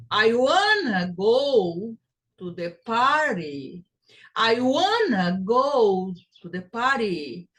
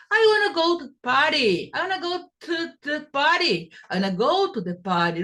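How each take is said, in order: First: Slow, stressing "wanna" and "party"; slower take. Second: Fast and higher, the words run together; fast connected speech. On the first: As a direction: spell it out slowly first. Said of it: "the time you take to pronounce the word". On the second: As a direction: rattle it off at speed. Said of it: "kind of velocity". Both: Shown as a demonstration.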